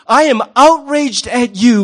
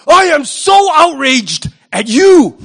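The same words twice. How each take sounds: First: Slow, drawn-out self-righteous line; mock outrage. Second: Slow, higher, louder fake indignation; mock outrage. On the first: Preacher playing a hypocrite again, in slow mock outrage. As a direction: lean into fake indignation. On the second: Preacher mocking a hypocrite, slow and higher with hammed-up outrage. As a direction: ham up the self-righteous anger.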